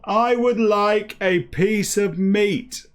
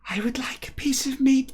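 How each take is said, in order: First: It is yelled loudly. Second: It is said quietly and timidly.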